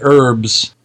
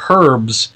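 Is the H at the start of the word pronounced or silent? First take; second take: Silent; Pronounced. First: The word starts without an H sound. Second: The word starts with an audible H sound. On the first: This is the American way of saying it. "where we say herbs" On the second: This is the British way of saying it. "they say herbs, because there's a fucking H in it"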